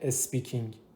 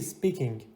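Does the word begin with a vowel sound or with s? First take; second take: vowel; s. First: The word begins with a vowel before s. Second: The word begins directly with an s sound. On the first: The speaker calls it wrong. "نه اینکه اسپیکینگ، اس نگم" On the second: The speaker calls it right. "درستش اینو بگم چی؟"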